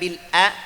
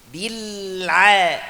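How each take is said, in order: First: A plain glottal stop follows the l. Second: A throaty ain sound follows the l. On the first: The speaker calls it wrong. "bukan bil a" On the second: The speaker calls it right. "Saya jelaskan aja"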